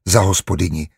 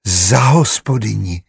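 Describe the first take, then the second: First: Said in the usual way. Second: Slow, enchanted echo. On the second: A narrator's reading. New housekeeper repeating her title to herself, enchanted. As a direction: repeat it slowly in dreamy wonder. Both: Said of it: "opakovala okouzleně".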